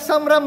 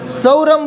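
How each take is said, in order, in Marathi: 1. पहिल्या अक्षराचा उच्चार अनुनासिक 'am' ने होतो. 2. पहिल्या अक्षराचा उच्चार 'au' स्वराने होतो. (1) "अनुस्वार आहे ना त्यावर" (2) "ते सौ काय दोन मात्रा का त्यावर? अनुस्वार आहे ना त्यावर, मग उच्चार नीट करा की"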